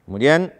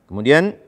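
Both takes have the same delivery.

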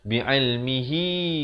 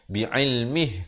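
First: The word ends with a lengthened hi vowel. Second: The word ends on a bare h sound. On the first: The reciter joins it to the next word. "Kalau nak wasal" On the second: The reciter stops after this word. "kalau nak berhenti"

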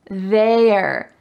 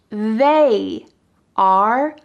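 First: One contracted syllable is said, 'they're'. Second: Two separate words are said, 'they are'.

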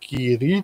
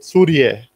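First: The name sounds like the cheese brand Kiri. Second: The name does not sound like the cheese brand. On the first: The speaker calls it wrong. "nie mylmy z Serkiem Curie, nie Curie" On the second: The speaker calls it right. "tylko Curie, żeby błędów nie było"

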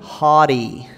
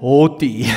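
First: It is said with an American accent. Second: It is said with an Afrikaans English accent. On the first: "With an American accent" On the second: "With my Afrikaans English accent"

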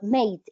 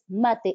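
First: It is said like an English word. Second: It is said in the native, non-English way. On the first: The speaker calls it wrong. "it is not mate, it's not an English word" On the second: The speaker calls it right. "it's mate, it's a native word"

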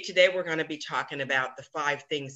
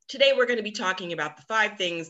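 First: It is said with flat, low energy. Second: It is said with lively, upbeat energy. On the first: The speaker calls it wrong. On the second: The speaker calls it right.

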